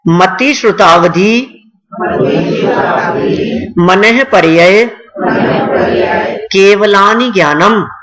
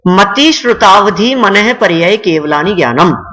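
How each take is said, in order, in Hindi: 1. यह धीरे-धीरे, शब्द-दर-शब्द बोला गया है। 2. यह सामान्य गति से बोला गया है।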